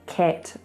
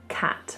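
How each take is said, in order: First: The vowel is tight, almost like eh. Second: The vowel is a wide open ah. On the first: The speaker calls it wrong. "make sure you don't say things like" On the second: The speaker calls it right. "Make that a nice wide ah sound"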